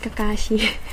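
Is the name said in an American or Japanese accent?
Japanese. The name is said with a Japanese accent. The speaker calls it right. "It's Kakashi"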